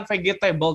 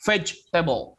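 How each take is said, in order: First: Vegetable dibaca fegetebəl dengan g keras; vegetable diucapkan fegetebəl; wrong vegetable. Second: Vegetable dibaca vedʒtebəl dengan j; vegetable diucapkan vedʒtebəl; correct vegetable. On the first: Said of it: "sayuran itu bukan vegetable". (vegetable dengan g) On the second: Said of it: "tapi vegetable". (vegetable dengan bunyi j) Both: Shown as a demonstration.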